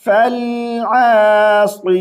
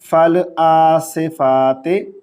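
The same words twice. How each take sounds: First: आसिफाती with a heavy sad and an i ending; आसिफाती recited with a heavy sad; correct tajweed. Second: आसिफाते with an e ending and a thin sad; आसिफाते ending in e, sad not heavy; wrong reading. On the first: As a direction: sad full and thick in आसिफाती. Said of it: "तो कैसे पढ़ेंगे?". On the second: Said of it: "इसको इस तरह नहीं पढ़ेंगे". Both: Shown as a demonstration.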